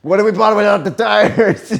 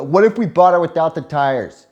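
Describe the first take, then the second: First: Higher, louder, mocking replay of the question; imitating dad mockingly. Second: Put-on a touch of a naive little kid; child's question. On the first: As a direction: parrot the kid's line back with glee. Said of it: "my dad's like". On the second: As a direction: ask it like an eager six-year-old. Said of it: "six years old, I go".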